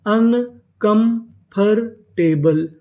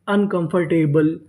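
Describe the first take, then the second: First: uncomfortable slowly split as अन, कम, फर, टे, बल; syllable by syllable. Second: Said in the usual way. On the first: Shown as a demonstration. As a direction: sound out uncomfortable part by part, pausing after each. (Uncomfortable को धीरे-धीरे हिस्सों में तोड़कर) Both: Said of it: "तो पूरी meaning".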